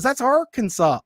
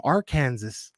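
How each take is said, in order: First: Arkansas said as AR-kan-saw, ending in saw; "Arkansas" ending in an aw sound, no z; correct Arkansas. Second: Arkansas said as Ar-KAN-zas, like the state Kansas; "Arkansas" pronounced Ar-kan-zas; wrong Arkansas. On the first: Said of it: "no, she goes". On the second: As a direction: read "Arkansas" wrongly, ending in a z sound. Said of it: "no, she goes, "That's Arkansas". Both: Retold or imitated.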